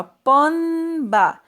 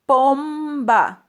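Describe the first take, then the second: First: Slow pomba said as ponba, mouth open on the nasal; teacher demo of the wrong N sound in pomba. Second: Pomba said with the M, lips closing on the m before the b; slow teacher demo of pomba with lips shut before the b; correct M in pomba. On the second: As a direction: say pomba with a closed-lip M sound. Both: Shown as a demonstration. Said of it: "Se eu tentar falar essa palavra com N".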